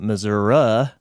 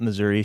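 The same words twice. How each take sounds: First: Missouri ending in uh, like Missour-uh; rural Missouri pronunciation. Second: Missouri ending in a clear ee sound; standard pronunciation. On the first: Retold or imitated. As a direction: say Missouri with an uh at the end. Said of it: "she doesn't call it Missouri". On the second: Shown as a demonstration. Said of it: "She calls it Missouri".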